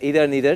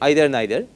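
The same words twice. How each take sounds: First: The first vowel sounds like 'ee' in field. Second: The first vowel sounds like 'eye' in height. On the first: "but then either neither is also accepted" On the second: "I say either neither, and that is why I am classifying them along with height"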